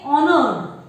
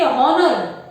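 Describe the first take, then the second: First: "honored" beginning on the vowel; honored with silent H. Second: "honor" with its H pronounced; honor with H sounded. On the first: Teacher correcting children, "honored" with silent H. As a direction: leave the H out of "honored". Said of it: "We say honored". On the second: Teacher warning children off it, "honor" with H sounded. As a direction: sound out an H before "onor" in "honor". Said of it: "We don't say honor". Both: Shown as a demonstration.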